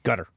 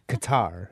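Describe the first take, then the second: First: The name sounds like the word gutter. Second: The name is said as ka-TAR. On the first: "that's how the Arabs pronounce it" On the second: "it sounds more exotic"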